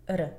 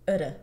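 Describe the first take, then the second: First: The first vowel is reduced to a schwa. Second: The first vowel is reduced to a schwa.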